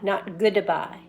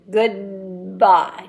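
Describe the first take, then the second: First: A small vowel separates the D and B. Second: The D is held straight into the B. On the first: The speaker calls it wrong. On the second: The speaker calls it right. "we don't want a vowel sound in between the D and the B"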